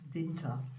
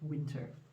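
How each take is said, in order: First: It is said with German pronunciation. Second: It is said with English pronunciation. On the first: "you basically just pronounce winter a tiny bit different. It's winter" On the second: "instead of winter"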